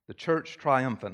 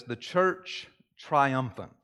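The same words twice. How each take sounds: First: Said in the usual way. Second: "the church triumphant" drawn out slowly, each word weighted; slow emphatic title. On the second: Shown as a demonstration. Pastor naming the first kind of church, slow and weighty. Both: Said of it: "the first one is this".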